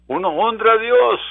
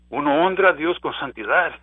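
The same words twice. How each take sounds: First: Higher, louder proclamation; crying it out to the congregation; preached climax. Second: Said in the usual way. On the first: Acted. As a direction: build it up and proclaim. Repeated phrase, climactic.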